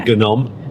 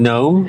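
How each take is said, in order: First: The word starts with a hard G sound. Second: The word starts without a G sound. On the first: The speaker calls it wrong. "you don't say gnome" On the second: The speaker calls it right. "I think it's a silent G. Like in gnome"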